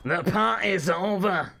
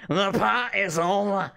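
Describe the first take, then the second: First: Slow, loud Scottish wrestler growl; Drew McIntyre impression. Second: Slow, loud Scottish mic threat; drawn-out Scottish taunt into the mic; Scottish wrestler line. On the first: Streamer imitating a Scottish wrestler's entrance line, slow Scottish. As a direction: drag out a Scottish wrestler's threat. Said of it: "That's my impression of Drew McIntyre". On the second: Retold or imitated. Retelling a wrestler's mic moment, slow Scottish. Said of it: "Drew McIntyre came out with the microphone and he goes".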